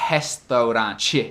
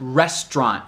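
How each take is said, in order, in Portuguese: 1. No fim, é acrescentada uma vogal extra. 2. Termina no t, sem vogal extra. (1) "outro epenthetic vowel lá no fim" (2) "falar restaurant"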